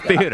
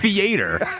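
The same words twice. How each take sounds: First: It is said with a standard accent. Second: It is said with a Midwestern accent.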